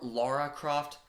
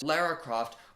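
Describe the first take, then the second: First: The first vowel sounds like 'law'. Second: The first vowel sounds like 'lah'. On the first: The speaker calls it right. "it's supposed to be pronounced Laura" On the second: The speaker calls it wrong.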